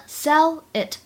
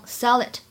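First: Said in the usual way. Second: "sell it" joined as one word; linked sounds. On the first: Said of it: "sell it当中可以做连读". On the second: Shown as a demonstration. Teacher showing learners the linking in "sell it", linked. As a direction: carry the l of "sell" into "it". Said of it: "当中可以做连读".

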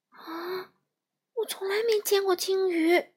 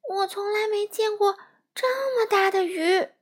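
First: Amazed. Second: High, louder amazed cry; astonished exclamation. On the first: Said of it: "闪闪惊奇地说". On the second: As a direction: gasp it out in wonder. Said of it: "闪闪惊呼一声". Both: Acted.

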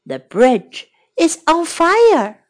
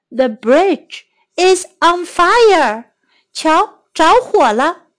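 First: Said in the usual way. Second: Slow clear demo. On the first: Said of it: "teacher repeats sentence". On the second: Shown as a demonstration. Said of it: "teacher repeats sentence slowly".

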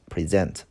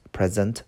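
First: "present" as pri-ZENT, stress on second syllable; verb pronunciation. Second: Said in the usual way. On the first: Shown as a demonstration. Teacher recapping the verb meaning, "present" pronounced pri-ZENT. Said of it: "还有一个意思当动词讲叫做呈现".

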